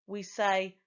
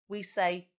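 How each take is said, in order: No difference in how they are said.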